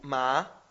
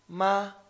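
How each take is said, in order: First: The syllable is said with the second tone. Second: The syllable is said with the first tone.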